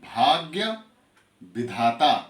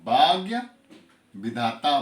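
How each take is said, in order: First: The bh and dh sounds are aspirated. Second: The bh and dh sounds lose their aspiration. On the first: The speaker calls it right. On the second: The speaker calls it wrong.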